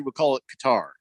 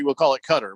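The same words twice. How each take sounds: First: Qatar said "kuh-TAR", second syllable stressed; out-of-country pronunciation. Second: Qatar said like "Cutter", first syllable stressed; in-country pronunciation. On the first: Host sums up the rule, out-of-country pronunciation. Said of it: "if we're out of the country". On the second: Host sums up the rule, in-country pronunciation. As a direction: say Qatar as locals do, "CUT-er". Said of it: "if we're in there". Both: Shown as a demonstration.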